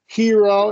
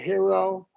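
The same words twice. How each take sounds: First: The first vowel is a long E sound. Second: The first vowel is a short I sound. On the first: The speaker calls it right. "So it is definitely a long E" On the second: The speaker calls it wrong. "as opposed to hero"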